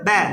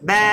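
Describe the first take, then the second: First: The vowel is short. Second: The vowel is drawn out long.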